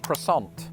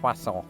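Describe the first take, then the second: First: It is said with an American, anglicized pronunciation. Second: It is said with a British, French-like pronunciation. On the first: "In American, they've just abandoned the French altogether" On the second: "in Britain, with this word, the French somehow convinced us to say that as croissant"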